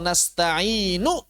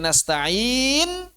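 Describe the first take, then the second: First: The final vowel is pronounced fully and clearly. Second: The final vowel is dropped completely. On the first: The reading continues without stopping. "wasal nasta'inu harokatnya sempurna" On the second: The reading stops with a full silent ending. "Kalau pakai sukun menjadi nasta'in"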